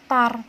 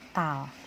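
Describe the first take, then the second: First: The word ends with an R sound. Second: The word ends with an L sound. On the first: The speaker calls it wrong. "dibacanya bukan tar" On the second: The speaker calls it right. "tapi tal"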